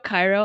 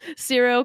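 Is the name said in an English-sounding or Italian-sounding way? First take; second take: English-sounding; Italian-sounding. First: The name is said in an English-sounding way. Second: The name is said in an Italian-sounding way. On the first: The speaker calls it right. "Cairo's much better" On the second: The speaker calls it wrong. "It was like Italian to me"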